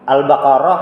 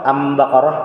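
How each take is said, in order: First: The word begins with the syllable al. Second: The word begins with the syllable am. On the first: "Ini pakai alif lam" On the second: "ini pakai alif mim"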